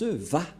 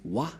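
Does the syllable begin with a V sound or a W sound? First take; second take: V sound; W sound. First: The syllable begins with a V sound. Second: The syllable begins with a W sound. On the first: The speaker calls it right. "Les juifs le prononcent Va" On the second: The speaker calls it wrong. "ces termes se prononcent selon eux en W"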